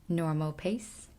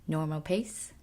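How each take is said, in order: The two takes are said the same way.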